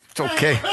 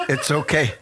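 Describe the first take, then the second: First: Said in the usual way. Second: Okay said through a small laugh; chuckling reassurance to himself. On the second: Acted. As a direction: laugh off the rejection lightly. Shrugging off rejection.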